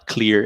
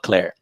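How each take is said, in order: First: The vowel sounds like the one in 'ear'. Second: The vowel sounds like the one in 'air'. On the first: This is the standard way to say it. "ele não falava clear" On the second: This is how a particular accented speaker said it. "ele falava Claire"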